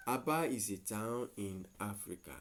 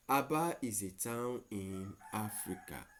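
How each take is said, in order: Both takes have the same delivery.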